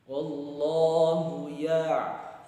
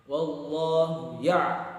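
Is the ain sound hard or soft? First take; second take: soft; hard. First: The ain sound is softened and smooth. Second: The ain sound is jerked and pressed hard. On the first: The speaker calls it right. "Dia agak halus" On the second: The speaker calls it wrong. "enggak boleh dihentak"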